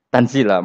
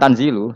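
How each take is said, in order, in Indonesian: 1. Kata itu berakhir dengan vokal 'a'. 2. Kata itu berakhir dengan vokal 'u'. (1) "Tapi kira kita kan baca apa?" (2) "Imam Suyuti baca tanzilu sehingga dia nerkepnya mubtada'"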